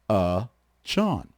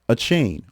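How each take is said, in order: First: The last part does not sound like chain. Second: The last part sounds like the word chain. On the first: The speaker calls it right. "But it's actually" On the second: The speaker calls it wrong. "his name was not Achane"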